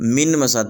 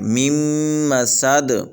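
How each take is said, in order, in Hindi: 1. साफ़ न की आवाज़ म से पहले आती है। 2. न दोहरे म की आवाज़ में मिल जाता है। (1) "यहाँ पर भी हज़रात गलती कर जाते हैं कि इसको मिन मसाद पढ़ देते हैं" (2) "मीम को इस मीम को अगली मीम के साथ मिला के पढ़ेंगे"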